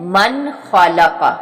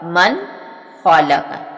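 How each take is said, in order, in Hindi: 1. “n” की आवाज़ साफ़ बोली जाती है। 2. “n” की आवाज़ साफ़ बोली जाती है।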